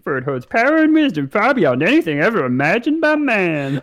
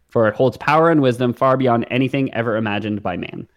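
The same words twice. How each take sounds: First: It is said in a funny put-on voice. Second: It is said in a normal speaking voice.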